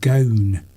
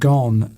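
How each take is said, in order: First: The vowel is long, rhyming with 'bone'. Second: The vowel is short, rhyming with 'on'. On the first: The speaker calls it wrong. "not gone" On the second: The speaker calls it right. "pronounced gone"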